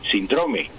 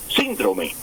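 First: The stress is on the second syllable. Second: The stress is on the first syllable. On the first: This is the usual form in Spain. "en España se dice síndrome, síndrome, sin tilde en la I" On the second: This is the usual form in Colombia. "síndrome con tilde en la I"

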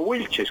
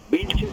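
First: The name starts with a W sound. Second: The name starts with a B sound. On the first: The speaker calls it wrong. "y no Wilches como pronunciamos los colombianos" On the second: The speaker calls it right. "Vilches en español"

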